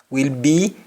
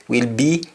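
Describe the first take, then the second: The two takes are said the same way.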